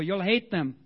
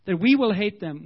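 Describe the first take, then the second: First: Said in the usual way. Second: We hit louder, falling tune; stress on we. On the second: Shown as a demonstration. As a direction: punch the word we.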